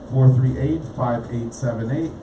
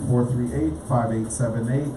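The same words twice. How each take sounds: The two takes are said the same way.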